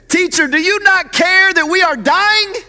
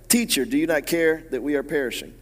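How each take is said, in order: First: It is said in a frantic, panicked tone. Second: It is said in a calm reading tone.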